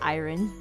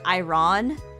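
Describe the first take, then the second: First: It is said with the usual spoken pronunciation. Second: It is sounded out the way it is spelled. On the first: The speaker calls it right. "it's actually pronounced as iron" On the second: The speaker calls it wrong. "she wants to pronounce it as iron"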